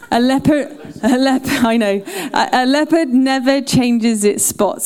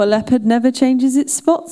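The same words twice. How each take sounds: First: It is said in a broad Cornish country accent. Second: It is said in the speaker's plain everyday accent. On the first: "She would have said, well, here, boy" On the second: "she didn't have said that like that"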